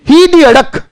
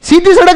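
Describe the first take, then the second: First: The s sounds are spoken as h sounds. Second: The s sounds are spoken as s sounds. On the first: This is how people from Jodhpur say it. "जैसे जोधपुर वाले भी कहते हैं ना" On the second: This is the standard way of saying it. "सीधी सड़क नहीं बोलते हम"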